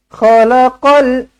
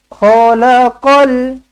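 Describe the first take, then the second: The two takes are said the same way.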